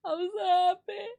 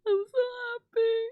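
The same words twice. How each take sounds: First: High, rising happy cry. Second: High, near-crying with stress on so; teary joy. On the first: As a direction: sing out the happiness. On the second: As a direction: tearfully lean on so. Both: Real, not acted. Repeated joy.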